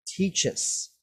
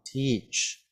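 First: "teaches" split into two clear syllables. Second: "teach" said as a single short syllable; one syllable. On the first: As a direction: model "teaches" with both beats. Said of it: "Now it's two syllables". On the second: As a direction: clip "teach" to one beat. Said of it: "it is just one sound, one syllable". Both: Shown as a demonstration.

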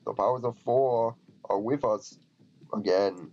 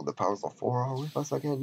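First: Measured, mildly theatrical Viking line; lightly voiced Viking. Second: Said in the usual way. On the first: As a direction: read it out as a game Viking. Reads the Viking's line in character.

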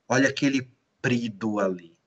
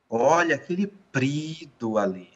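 First: A neutral pointing-out tune, dropping at the end; first intonation. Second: A different intent, lifting "Olha"; second intonation. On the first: (entonação neutra e baixa, caindo no final) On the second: (entonação mais alta e intencional, destacando "Olha") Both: Shown as a demonstration. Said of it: "Olha a diferença de entonação".

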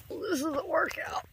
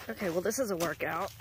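First: This is a workout, said up high; high-pitched repeat. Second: Said in the usual way. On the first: Real, not acted. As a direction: pitch it up in mock complaint.

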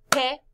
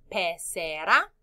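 First: "pecera" in three short loud beats, pe, ce, ra; syllable by syllable. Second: Said in the usual way. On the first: Shown as a demonstration. Teacher counts syllables with class, "pecera" broken in three. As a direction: punch each syllable of "pecera" separately. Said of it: "Cuántas sílabas en pecera". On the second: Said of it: "¿Repites palabra?".

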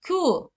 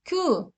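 First: "ku" with a vowel between ü and u, lips barely rounded. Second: "Ku" with a pure back Turkish u, marked as wrong; wrong vowel shown. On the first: Teacher to students, modelling the right "ku". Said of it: "ü ile u sesi arası dudaklar fazla büzülmeden okunur". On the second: Teacher to students, showing the wrong "Ku". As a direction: say "Ku" wrongly, lips fully rounded and the u far back. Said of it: "Ku değil arkadaşlar". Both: Shown as a demonstration.

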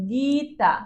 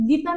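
First: "Gita" with a long first গী, then তা; syllable by syllable. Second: Said in the usual way. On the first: Shown as a demonstration. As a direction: stretch out the first beat of "Gita". ("Gita" টেনে, দুই ঝোঁকে) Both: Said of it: "Gita নামটা উচ্চারণ করো".

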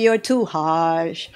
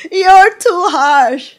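First: Said in the usual way. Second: High, loud, slow mock echo of the complaint; mocking repeat. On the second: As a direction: parrot the objection back in a higher, louder, slower voice.

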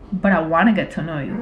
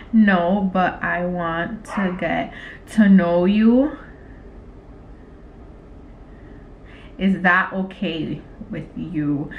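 First: Said in the usual way. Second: Slow, low, word-by-word; typing aloud. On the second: Real, not acted. Typing a flirty text to him, slow dictation. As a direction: say it slowly as you type it out.

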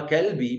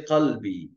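First: Kelbi with an ordinary front K; everyday K opening Kelbi; plain K sound. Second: Qalbi with a guttural Q; back-of-the-throat Q opening Qalbi; throaty Arabic Q. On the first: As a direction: say Kelbi with a simple K. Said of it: "você escuta". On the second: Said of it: "imagina pessoas falam pra você". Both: Shown as a demonstration.

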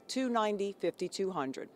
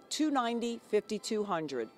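The two takes are said the same way.

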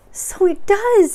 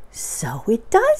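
First: Very high, loud, drawn-out squeal; excited Piglet. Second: Slow, raised voice of wonder; marveling Pooh. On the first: Piglet echoes Pooh's wonder, very high and excited. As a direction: squeak it slowly, pitched right up. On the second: Pooh watches the balloon go in, slowly marveling. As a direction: draw it out, moderately high. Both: Acted.

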